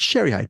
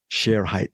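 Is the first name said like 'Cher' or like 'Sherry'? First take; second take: Sherry; Cher. First: The first name sounds like 'Sherry'. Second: The first name sounds like 'Cher'. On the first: The speaker calls it wrong. "The media people they pronounce it Sherry Height" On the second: The speaker calls it right. "the correct pronunciation is Cher Height"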